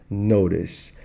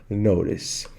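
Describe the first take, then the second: No difference in how they are said.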